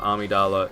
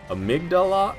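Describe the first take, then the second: First: It is said without a G sound. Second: It is said with a G sound. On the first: The speaker calls it wrong. "without a G" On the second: The speaker calls it right. "it's Amygdala"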